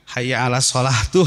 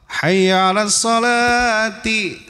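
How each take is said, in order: First: The last word ends with an u vowel. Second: The last word ends with an i vowel. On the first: The speaker calls it wrong. "jangan menyebutkan" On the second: The speaker calls it right. "Ciri khafadnya apa? Kasrah"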